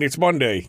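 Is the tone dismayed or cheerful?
cheerful. It is said with put-on cheer.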